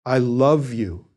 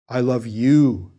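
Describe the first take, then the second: First: LOVE stretched and stressed, slow. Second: Slow, YOU stressed at the end. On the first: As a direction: linger on the word love. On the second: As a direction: land on the word you. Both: Shown as a demonstration. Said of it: "italicize one of the words in the dialogue itself to show the speaker's emphasis".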